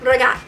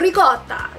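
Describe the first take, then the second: First: The word is clipped and drops the final vowel. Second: The word ends with a full final vowel. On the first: The speaker calls it wrong. "they say ragat" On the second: The speaker calls it right. "You say ricotta"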